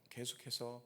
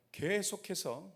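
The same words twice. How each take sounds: First: Softer echo. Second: Drawn out. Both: Real, not acted.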